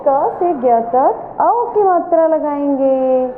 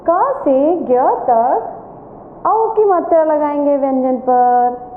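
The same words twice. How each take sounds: First: Said in the usual way. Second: Slow, clear classroom explanation; slow teacher answer. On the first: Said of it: "क्या करेंगे?". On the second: Shown as a demonstration. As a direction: spell it out slowly for the class. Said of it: "तो आज हम इस page में क्या करेंगे?". (धीमे, साफ़ शिक्षक की आवाज़ में)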